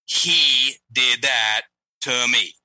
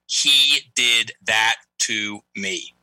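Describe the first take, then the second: First: HE drawn out and weighted, slow; stress on HE. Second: HE weighted and slow; stress on HE. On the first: Shown as a demonstration. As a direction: dwell on "He" in "He did that to me". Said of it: "he made a very clear example". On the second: Retold or imitated. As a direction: lean hard on HE in "He did that to me". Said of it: "And it went like this".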